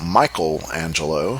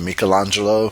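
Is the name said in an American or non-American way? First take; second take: American; non-American. First: The name is said in an American way. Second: The name is said in a non-American way.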